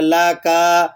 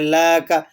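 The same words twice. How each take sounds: First: The second vowel is drawn out long. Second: The first vowel is drawn out long. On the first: "काफ को खींच लेंगे" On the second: "लाम को खींच देंगे"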